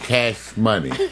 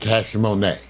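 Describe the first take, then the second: First: The second word sounds like ordinary 'money'. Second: The second word sounds like 'mo-NAY'. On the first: "named their child Cash Money" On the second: "they pronounce it Cash Monet"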